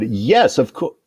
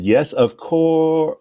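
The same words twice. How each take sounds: First: Said in the usual way. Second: Slow, high drawn-out yes of course; eager yes. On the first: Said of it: "I said, "Yes, of course," almost said". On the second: Shown as a demonstration. Assistant answering the administrator, slow high eager agreement. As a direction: stretch it out with over-eager pride. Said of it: "almost said".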